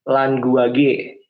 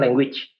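First: It is read with Indonesian letter sounds. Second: It is read with English pronunciation. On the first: "kalau kita baca pakai bahasa Indonesia" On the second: "kalau kita emang pakai pelafalan bahasa Inggris"

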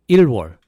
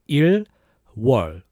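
First: It is said fast, run together. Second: It is said slowly, with a gap.

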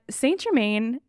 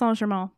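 First: It is said with an English-style pronunciation. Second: It is said with a French-style pronunciation. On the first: "that's how I'm going to pronounce it" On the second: "It is pronounced"

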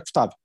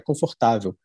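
First: It is clipped and fast, European Portuguese style. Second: All vowels are said fully, Brazilian style.

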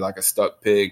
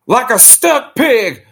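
First: It is said in his normal voice. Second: It is said in a J R impression.

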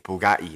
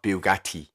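First: The T sounds are softened or dropped. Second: The T sounds are clearly pronounced. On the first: This is how the speaker's own group says it. "He says Bugatti, right? Like we do" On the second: This is how others say it. "not Bugatti"

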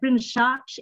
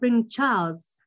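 First: The R and L sounds in Charles are blurred. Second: The R and L sounds in Charles are clear. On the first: The speaker calls it wrong. "I would have said Prince Charles instead of" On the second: The speaker calls it right. "instead of Prince Charles"

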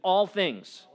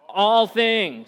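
First: It is said in a plain, ordinary way. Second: It is said forcefully, with strong conviction.

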